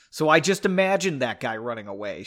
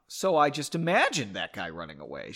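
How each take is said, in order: First: Coolly. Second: Lower, restrained sarcastic question; understated icy challenge; coolly. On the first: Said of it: "she said coolly". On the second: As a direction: say it with cool, low restraint. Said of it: "she asked coolly". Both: A narrator's reading.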